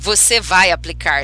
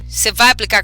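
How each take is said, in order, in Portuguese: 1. Cada palavra é dita devagar e separadamente. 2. As palavras são ditas rápido e emendadas. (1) "E nem sai assim" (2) "Sai assim"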